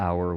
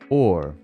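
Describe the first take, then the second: First: The vowel is a gliding 'ow' like 'our'. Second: The vowel is a rounded 'aw' like 'or'. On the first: This is how the word is said today. "the pronunciation of hour didn't used to be that way" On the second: This is how the word was said in the past. "It used to be pronounced or"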